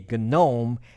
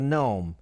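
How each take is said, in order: First: The word starts with a sounded G. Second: The word starts with a silent G. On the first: It names the Linux interface. "This one is a GNOME" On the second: It names the garden figure. "not the garden gnome. That's a gnome"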